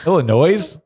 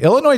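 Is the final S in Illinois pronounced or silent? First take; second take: pronounced; silent. First: The final S is pronounced. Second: The final S is silent. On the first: "That sounds great" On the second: "the S is silent in Illinois. Illinois just sounds boring"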